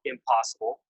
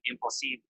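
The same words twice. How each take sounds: First: Said in the usual way. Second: "impossible" said the French way, ending like "ee-bl"; "impossible" with a tentative French pronunciation. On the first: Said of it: "English words like impossible". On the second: Shown as a demonstration. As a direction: attempt "impossible" in learner's French. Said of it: "I'm probably saying that wrong".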